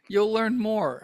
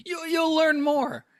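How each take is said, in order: First: Said in the usual way. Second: High, slow, knowing delivery; wise pronouncement. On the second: Pretend. Host sagely telling listeners they'll learn more. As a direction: intone it like ancient wisdom. Mock-wise repeat of a plug.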